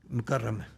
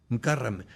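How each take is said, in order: Both takes have the same delivery.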